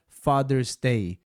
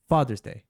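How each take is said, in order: First: All syllables are given the same length. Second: One syllable is much more emphasized than others. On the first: "eu acabaria pronunciando todas as sílabas com a mesma duração" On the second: "uma sílaba é muito mais enfatizada do que outras"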